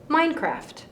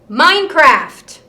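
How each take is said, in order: First: It is said at medium loudness. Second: It is said loudest of the three.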